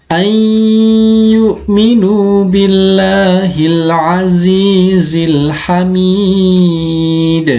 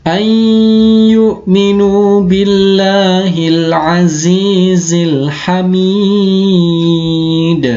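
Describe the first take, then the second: No difference in how they are said.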